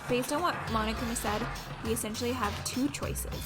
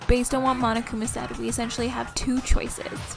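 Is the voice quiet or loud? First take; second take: quiet; loud. First: The voice is quiet and low in volume. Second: The voice is louder and right against the microphone. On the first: The speaker calls it wrong. "I think you need to do her voice a bit louder" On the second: The speaker calls it right. "rub your lips against the microphone"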